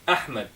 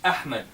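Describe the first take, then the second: First: The first vowel starts with a sharp glottal catch. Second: The same.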